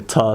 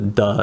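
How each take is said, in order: First: The word starts with a t sound. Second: The word starts with a d sound. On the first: The speaker calls it wrong. "sometimes pronounced like a ta" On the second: The speaker calls it right. "I believe the da is more correct"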